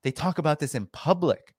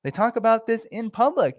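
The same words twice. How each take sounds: First: Said in the usual way. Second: They talk about this in public, pitched much higher; emphatic higher repeat. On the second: Real, not acted. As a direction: repeat it higher, hammering the point.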